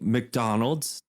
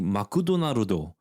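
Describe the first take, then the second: First: It is said with an English accent. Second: It is said with a Japanese accent. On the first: "they don't say McDonald's" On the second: "they say Makudonarudo ... in their Japanese accent"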